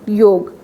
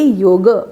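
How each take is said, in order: First: The word ends on the consonant 'g'. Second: The word ends with a short 'a' vowel. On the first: This is the Hindi pronunciation. "Hindi में बोलना हो तो हम बोलते हैं" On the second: This is the Sanskrit pronunciation. "Sanskrit में शब्द बोलेंगे"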